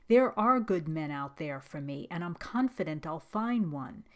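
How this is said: It is said firmly, with strong conviction. The speaker truly believes it. The speaker calls it right. "say it with conviction like this"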